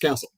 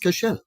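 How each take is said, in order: First: The name is said as Castle. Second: The name is said as Kashel. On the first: It is how the family says the name. The speaker calls it right. "It's pronounced Castle" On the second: It is a literal reading of the spelling. The speaker calls it wrong. "phonetically, your name to me is Kashel"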